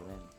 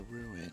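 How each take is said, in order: First: The i sound is nearly dropped, like room. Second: The i sound is clearly heard as two syllables. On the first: The speaker calls it wrong. "You don't ex- you don't say the I enough in ruin" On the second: The speaker calls it right. "as my wife would correct me"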